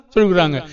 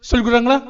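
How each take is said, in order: First: சொல்லி stressed, கொடுக்குறாங்க falling flat to a close; answering fall. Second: கொடுக்குறாங்களா asked with a rising end; questioning rise. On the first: Preacher answering his own question, falling statement. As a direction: settle it down as the answer. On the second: Preacher quizzing the congregation, rising question. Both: Shown as a demonstration.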